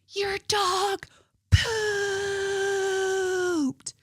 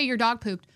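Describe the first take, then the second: First: It is screamed loudly with a drawn-out word. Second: It is said at a calm, ordinary loudness. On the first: The speaker is furious and confrontational. "she screamed at full volume" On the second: The speaker is simply pointing it out. "It wasn't just your, hey"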